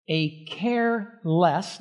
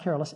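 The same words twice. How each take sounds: First: "careless" split into CARE, LESS, drawn out slowly; care-less as two words. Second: Said in the usual way. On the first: Shown as a demonstration. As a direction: pull "careless" apart, weight on both halves. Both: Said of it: "not careless".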